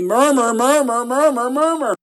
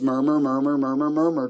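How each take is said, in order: First: It is said loudest of all. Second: It is said a little louder.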